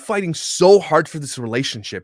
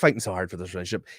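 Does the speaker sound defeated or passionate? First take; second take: passionate; defeated. First: It is said with passion and energy. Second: It is said flatly, sounding defeated. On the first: He truly wants to save the relationship. "Imagine he said that differently" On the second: He has given up and cannot express his feelings. "He is defeated"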